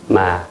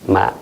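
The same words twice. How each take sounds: First: Said with the tone meaning but. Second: Said with the tone meaning seedling. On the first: The word means but. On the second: The word means a young rice seedling. "jeune pousse de, de blé, de riz"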